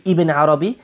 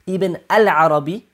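First: Said in the usual way. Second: "al" picked out in "Ibn al-Arabi"; stress on AL. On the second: Shown as a demonstration. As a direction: stress the article "al" to set this name apart. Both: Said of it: "is the difference".

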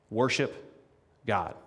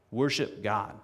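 First: Worship lifted and set apart; emphatic exhortation. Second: Said in the usual way. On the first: Real, not acted. Preacher urges the congregation, emphatic exhortation. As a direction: say it as a summons.

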